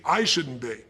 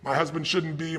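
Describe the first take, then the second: First: I said louder and landed with a fall; stress on I. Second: Said in the usual way. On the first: Shown as a demonstration. Coach demonstrating the turnaround, firm stress on I. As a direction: lean hard on I to own the thought. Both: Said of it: "when you turn things around".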